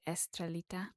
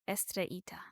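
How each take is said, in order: First: The name is said with an L sound. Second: The name is said without an L sound. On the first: The speaker calls it wrong. "I'm gonna butcher this again" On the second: The speaker calls it right. "No L sound"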